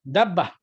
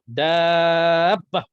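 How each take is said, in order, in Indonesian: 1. Vokalnya diucapkan pendek, tidak dipanjangkan. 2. Vokalnya ditahan panjang dan dipanjangkan. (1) "Dia sebut dabbah begitu saja" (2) "ni panjang ni sebut dalam kita kita nak baca Quran saja"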